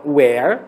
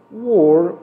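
First: Where with a wide open e, wɛr; open vowel where. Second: Were with a closed, rounded vowel, wor. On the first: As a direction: stress the open sound in where. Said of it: "som aberto". (where pronunciado com e aberto) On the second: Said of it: "o som já é fechado". (were com som fechado) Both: Shown as a demonstration.

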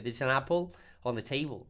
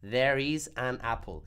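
First: There is an apple on the table run together into one blur; said very fast. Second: Slow, each word of There is an apple separate; said slowly. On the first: Profesora muestra cómo suena la frase dicha rápido, todo junto. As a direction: rush it so the words fuse. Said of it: "si uno lo dice muy rápido". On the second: Profesora muestra la frase dicha despacio, palabra por palabra. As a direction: spell it out slowly and clearly. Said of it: "si lo dice despacio". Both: Shown as a demonstration.

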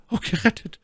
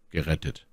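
First: High falsetto lady, overcome; My Lady stammering. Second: Said in the usual way. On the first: A narrator's reading. Rescued lady to her young officer, high stammered relief. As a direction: gasp it out in a high lady's voice. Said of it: "stammelte sie". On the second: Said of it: "antwortete der junge Offizier".

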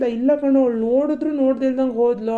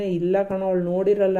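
First: Imitating his friend. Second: Said in the usual way. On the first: Boyfriend mimics his friend saying she ignored him, higher and teasing. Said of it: "ನನ್ friend ಹೇಳ್ದ". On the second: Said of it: "ನಾನ್ ಸುಮ್ನೆ".

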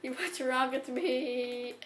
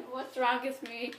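First: Slowed-down, drawn-out question; slow exasperated. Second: Said in the usual way. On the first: Real, not acted. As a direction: drag each word out in disbelief.

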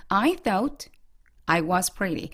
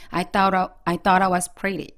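First: "I thought"에서 멈췄다가 "I was pretty". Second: Slow, rhythmic, "thought I" run together; smooth rhythmic linking. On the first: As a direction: break after "thought", then start "I was pretty" separately. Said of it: "끊어서 읽으시면 안 되고요". ("I thought"와 "I was pretty"를 뚝 끊어서) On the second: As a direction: link "thought" into "I" and keep the rhythm. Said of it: "끊지 마시고 부드럽게 연결". ("thought I"를 부드럽게 연결해 리듬 타면서) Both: Shown as a demonstration.

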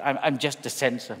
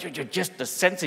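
First: Said in the usual way. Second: Just the censor rising in disbelief; you're just the censor? asked in amazement; shocked disbelief. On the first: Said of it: "we always play things down". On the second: Retold or imitated. Family amazed to meet the censor, disbelieving rise. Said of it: "completely shocked".

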